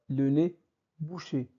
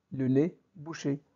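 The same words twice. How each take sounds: The two takes are said the same way.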